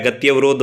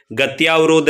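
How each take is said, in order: First: गत्यवरोध with a short अ after त्य, read as the correct form; correct form shown. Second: गत्यावरोध with a long आ after त्य, read as the wrong form; wrong form shown. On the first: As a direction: say गत्यवरोध as gatya-varodh, keeping it short. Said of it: "गत्यवरोध होता है". (सही रूप: गत्यवरोध, त्य के बाद छोटा अ) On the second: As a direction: say गत्यावरोध as gatyaa-varodh, stretching the आ. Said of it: "गत्यावरोध नहीं होता है". (गलत रूप: गत्यावरोध, त्य के बाद लंबा आ) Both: Shown as a demonstration.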